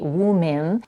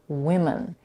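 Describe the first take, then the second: First: The last vowel is a full, changed vowel. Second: The last vowel is reduced to a schwa. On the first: The speaker calls it wrong. "incorrectly say woman, where they change the last vowel" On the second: The speaker calls it right. "this vowel is reduced to a schwa"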